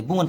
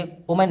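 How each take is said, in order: First: वुमन said wu-man, with a clear u then a short a; वुमन like English woman, wu-man; correct pronunciation. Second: वुमेन said like English women, wi-min; the word वुमेन with the wrong vowels, wi-min; wrong pronunciation. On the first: Teacher gives the right form, वुमन as wu-man. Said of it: "इसकी सही pronunciation है वुमन". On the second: Teacher shows students the wrong way, वुमेन as wi-min. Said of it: "वुमेन नहीं पढ़ते". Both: Shown as a demonstration.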